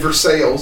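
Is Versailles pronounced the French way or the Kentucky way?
Kentucky. It is said with a local Kentucky pronunciation. "That's the Kentucky accent"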